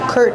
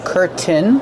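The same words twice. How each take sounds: First: The middle T is stopped, not released. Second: The middle T is fully released. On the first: "or you can do the stop T" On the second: "You can pronounce the T and say curtain"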